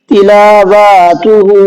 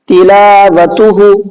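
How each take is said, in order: First: The third vowel is stretched long as well. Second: The last vowel is cut short. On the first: "यहाँ पर वाव खिंच गया।" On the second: "यहाँ पर हा नहीं खिंचा है।"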